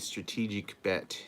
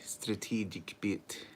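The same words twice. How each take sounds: First: It is said in the speaker's ordinary accent. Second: It is said in a put-on Russian accent.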